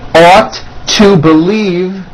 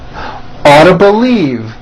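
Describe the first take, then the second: First: Each word is said separately and in full. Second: The words are squeezed together into a reduced form.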